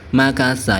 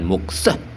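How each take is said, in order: First: The first vowel is a, with a middle vowel. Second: The first vowel is u, with no middle vowel. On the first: The speaker calls it right. "yang benar itu makasa" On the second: The speaker calls it wrong. "Bukan muksah"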